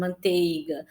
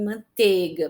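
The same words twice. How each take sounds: First: Manteiga said as mantega, the I gone; dropped I. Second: Said in the usual way. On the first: Shown as a demonstration. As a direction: drop the I in manteiga like casual speech. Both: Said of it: "ele tende a sumir".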